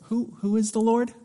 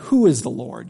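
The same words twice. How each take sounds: First: It sounds curious, like a genuine request for information. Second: It sounds scornful, like a mocking insult. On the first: The asker wants to learn more. The speaker calls it wrong. "that's not the tone of what Pharaoh is trying to convey here" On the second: The asker dismisses the one asked about. The speaker calls it right. "Pharaoh is asking this question as an insult"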